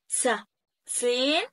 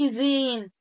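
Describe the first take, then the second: First: It begins with a ts sound. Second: It begins with a plain z sound. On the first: The speaker calls it right. "بتكون س س تحسين في بعض" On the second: The speaker calls it wrong. "ما اقولش زين"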